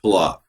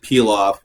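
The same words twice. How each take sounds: First: "pilaf" said as the standard dish name; pronounced pilaf. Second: "pilaf" said as "peel off"; pronounced peel off. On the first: Cook answering a viewer on how it's pronounced, pilaf as one word. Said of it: "it's pronounced pilaf". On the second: Cook offering viewers another pronunciation, pilaf as "peel off". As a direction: say "pilaf" like the two words "peel off". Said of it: "You can pronounce it peel off". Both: Shown as a demonstration.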